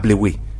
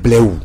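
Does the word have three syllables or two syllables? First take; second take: three; two. First: The word ends with an extra final vowel syllable. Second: The word ends without an extra final vowel. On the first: The speaker calls it wrong. "ce n'est pas bléoué" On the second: The speaker calls it right. "C'est bléou"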